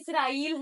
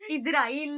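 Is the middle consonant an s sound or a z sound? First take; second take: s sound; z sound. First: The middle consonant is an s sound. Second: The middle consonant is a z sound. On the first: The speaker calls it right. "इसराइल है" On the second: The speaker calls it wrong. "इजराइल नहीं"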